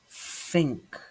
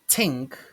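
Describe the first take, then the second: First: The word begins with a soft th sound. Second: The word begins with a plain t sound. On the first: The speaker calls it right. "but think" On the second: The speaker calls it wrong. "It's not tink"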